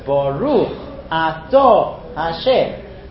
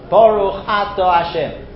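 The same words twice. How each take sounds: First: Baruch is stressed on its last syllable. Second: Baruch is stressed on its first syllable. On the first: The speaker calls it right. "It's baruch ato Hashem" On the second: The speaker calls it wrong. "It's wrong"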